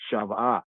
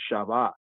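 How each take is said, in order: First: The middle consonant is a v sound. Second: The same.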